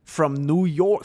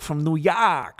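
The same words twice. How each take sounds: First: Said in the usual way. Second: Put-on New York accent on "York". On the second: Streamer reading a New Yorker's message, mock New York accent. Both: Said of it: "I'm a Jordanian from New York".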